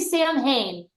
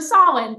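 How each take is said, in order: First: It is said as two parts, Sam and Hain. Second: It is said as the single word Samhain. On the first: The speaker calls it wrong. "Wrong, wrong, it's just wrong" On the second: The speaker calls it right. "So Samhain, thank you"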